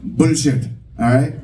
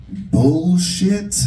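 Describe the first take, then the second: First: "Bullshit" short and falling, in an Indian accent. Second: "bullshit" drawn out in an American accent, higher. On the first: Comic showing how it should be said, Indian-accented "Bullshit". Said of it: "that certain Indian accent". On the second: Comic testing a word on the crowd, American-accented "bullshit". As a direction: stretch "bullshit" the American way, questioning. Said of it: "said with this American accent". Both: Shown as a demonstration.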